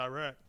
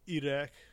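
First: The R is said as a plain American R. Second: The R sounds almost like a D. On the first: This is how most Americans say it. "most Americans are like, I went to Iraq" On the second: This is closer to the local way of saying it. "It's almost like a D on the R's"

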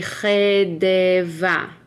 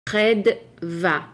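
First: A full vowel is heard between d and v. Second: The d runs straight into v, no vowel. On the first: The speaker calls it wrong. "ordinarily, you would say chedeva" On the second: The speaker calls it right. "the D is kind of like somewhat quiet here, so it would be chedva"

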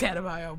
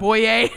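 First: The name ends with a 'bayo' sound. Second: The name ends with a 'boy' sound. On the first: The speaker calls it right. "It's Adebayo" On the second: The speaker calls it wrong. "but that's okay"

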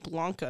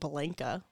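First: The first vowel sounds like 'ah' in 'father'. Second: The first vowel sounds like the 'a' in 'blank'. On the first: The speaker calls it right. "It's like Blanca" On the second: The speaker calls it wrong. "not Blanca. so American. Blank. Like a blank"

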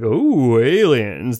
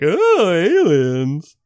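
First: It sounds eerie and serious, like The X-Files. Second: It sounds campy and tongue-in-cheek.

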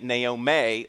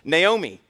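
First: The name is said the Texan way. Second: The name is said the standard way. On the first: The speaker calls it wrong. "I was pronouncing it Naomi last week. That's because I came back from Texas, and that's how they pronounce it there" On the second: The speaker calls it right. "So I was corrected"

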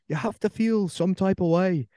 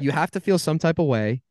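First: It is spoken in an imitated Irish accent. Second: It is spoken in the speaker's normal accent.

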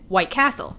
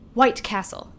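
First: The stress falls on the second word. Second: The stress falls on the first word. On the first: The speaker has always said it this way. "with the emphasis on castle" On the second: Other people say it this way.

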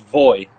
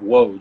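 First: The name begins with a V sound. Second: The name begins with a W sound. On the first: It follows Polish spelling rules. "in the Polish language, the W is a V, and the J is a Y, so it's Voj" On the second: It follows English spelling rules. "that's why most people pronounce it Woj"

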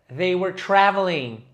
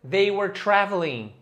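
The two takes are said the same way.

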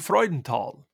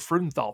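First: The name is said with a German pronunciation. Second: The name is said with an English pronunciation. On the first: The speaker calls it right. "Would be the German pronunciation" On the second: The speaker calls it wrong. "They all laughed at us because we said it so poorly"

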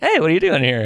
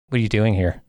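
First: It is said in a warm, friendly tone. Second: It is said in a cold, hostile tone. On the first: The speaker is welcome there. "Not like" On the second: The speaker is unwelcome there. "they'd say it like that"

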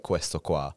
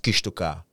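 First: It is said in standard Italian. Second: It is said in Sicilian dialect.

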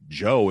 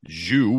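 First: The name is pronounced like 'Joe'. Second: The name is pronounced like 'Zhu'. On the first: The speaker calls it right. "the pronunciation is Joe" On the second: The speaker calls it wrong. "instead of Zhu, which is what I was going to say"

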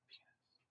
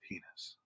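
First: It is said very quietly. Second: It is said a bit louder.

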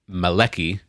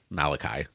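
First: It is said with a Hebrew pronunciation. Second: It is said with an English pronunciation.

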